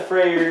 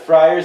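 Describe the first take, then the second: First: The first vowel sounds like 'fray'. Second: The first vowel sounds like 'fry'. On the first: The speaker calls it wrong. "not the frayers" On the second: The speaker calls it right. "The fryers"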